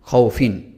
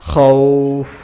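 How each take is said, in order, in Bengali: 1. শব্দটি হ্রস্ব স্বরে এগিয়ে যায়। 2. শব্দটি দীর্ঘ টানা স্বরে থেমে যায়। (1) "যদি না থামি তাহলে এখানে কোনো টান হচ্ছে না" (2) "এখন আমি থামবো এখানে"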